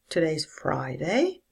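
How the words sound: It starts low and rises up. It sounds like a question. "A low rise"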